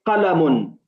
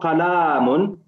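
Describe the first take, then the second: First: The vowel after the l is kept short. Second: The vowel after the l is drawn out long. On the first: The speaker calls it right. "It's qalamun" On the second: The speaker calls it wrong. "Try to avoid elongating the the alif. So it's not qalamun"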